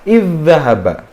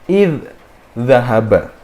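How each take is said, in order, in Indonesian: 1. Dh pertama menyatu dengan dh yang mengikutinya. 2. Dh pertama dimatikan secara terpisah sebelum dzahaba. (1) "dal sukunnya ini dihilangkan dan dimasukkan ke huruf dal setelahnya" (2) "kalau misalkan kita tidak kenal dengan hukum idgham mutamasil lain ... zal pertama itu harus dimatikan dulu"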